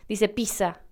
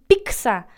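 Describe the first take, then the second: First: The middle consonant is a plain s sound. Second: The middle consonant is a ks sound. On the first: "como si fuera una S" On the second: "como si fuera P-I-C-S-A"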